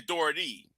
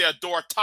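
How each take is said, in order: First: Said in the usual way. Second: "authority" cut to "authori-TAH"; Cartman. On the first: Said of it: "rather than saying authority". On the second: Retold or imitated. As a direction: say "authority" with an open "tah" ending. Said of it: "every time a Cartman says".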